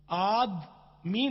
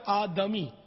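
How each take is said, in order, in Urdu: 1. د کی آواز کے بعد کوئی مصوتہ نہیں آتا۔ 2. د کی آواز کے بعد مختصر زبر والا مصوتہ آتا ہے۔ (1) "آدمی نہیں, دال ساکن نہیں ہے" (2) "دال پر زبر ہے"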